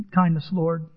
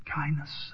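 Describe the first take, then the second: First: Said in the usual way. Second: A soft breathy whisper to God; whispered prayer. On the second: Real, not acted. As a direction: breathe the word as a private plea. Prayer repeated, then whispered.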